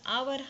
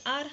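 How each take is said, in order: First: The word is said with two syllables. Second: The word is said with one syllable. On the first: The speaker calls it wrong. "आवर असं बोललं तर वेगळं वाटतं" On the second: The speaker calls it right. "आपण बोलताना आर बोलायचं आहे"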